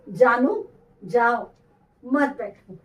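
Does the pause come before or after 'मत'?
before. The pause comes after 'जाओ', before 'मत'.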